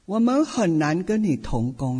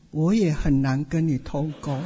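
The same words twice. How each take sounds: First: Said in the usual way. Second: 也 pushed out with a laugh as a wry retort; 也 said firmly with a laugh; stress on 也 with a laugh. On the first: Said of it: "派一位长老到我的办公室说". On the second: Retold or imitated. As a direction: lean on 也, chuckling. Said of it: "我心里想".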